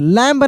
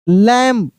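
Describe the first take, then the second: First: The word ends with an audible b sound. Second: The word ends on m with no b. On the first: The speaker calls it wrong. "लैम्ब नहीं" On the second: The speaker calls it right. "यानी बी silent है।"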